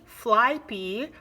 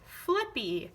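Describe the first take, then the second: First: The first vowel is a long I sound. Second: The first vowel is a short I sound. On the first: The speaker calls it wrong. "that doesn't make sense" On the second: The speaker calls it right. "switch that vowel sound to the short vowel sound"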